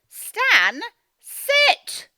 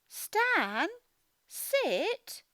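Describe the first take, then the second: First: It is said forcefully, like a command. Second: It is said calmly, without force.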